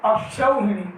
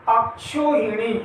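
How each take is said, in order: First: अक्षौहिणी with a clear au after क्ष; au diphthong. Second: अक्षोहिणी slowly, with plain o after क्ष; अक्षोहिणी with no au glide; single o vowel. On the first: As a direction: glide from a to u in अक्षौहिणी. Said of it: "यानी यहाँ पर दो मात्रा आएंगी". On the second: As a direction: say kshо as one o in अक्षोहिणी. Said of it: "ये हमारा अशुद्ध है". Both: Shown as a demonstration.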